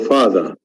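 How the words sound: The r sound after the vowel is dropped. "So this is the British accent actually"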